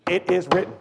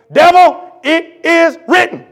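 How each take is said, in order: First: Said in the usual way. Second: High, loud, slow shout at the devil; shouted rebuke. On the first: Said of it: "three words, "It is written". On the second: Acted. Jesus rebuking the devil, a high slow shout. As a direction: fire the words back like a blow. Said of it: "you know what he shot back at him?".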